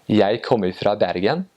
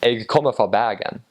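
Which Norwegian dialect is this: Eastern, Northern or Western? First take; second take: Eastern; Western. First: It is said in an Eastern Norwegian dialect. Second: It is said in a Western Bergen dialect.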